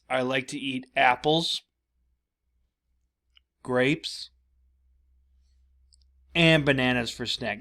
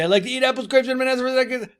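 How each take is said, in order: First: Long full stops come between the listed items. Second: The items run together without any breath. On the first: "I'm not saying that you read it like this" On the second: "your little cousin who just keeps going and going and going"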